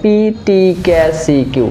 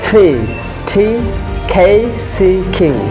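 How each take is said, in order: First: The consonants are released without a puff. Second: The consonants are released with a strong puff. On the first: The speaker calls it wrong. "আমরা বাংলাদেশি এটাকে বলে থাকি" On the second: The speaker calls it right. "আমরা native স্পিকাররা যেভাবে pronunciation করে থাকি"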